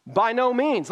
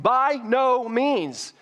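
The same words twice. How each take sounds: First: Emphatic denial. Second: "By no means" slow and high, each word hammered; emphatic by no means. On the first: Acted. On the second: Shown as a demonstration. Pastor showing the congregation Paul's exclamation point, slow emphatic. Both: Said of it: "Look, exclamation point".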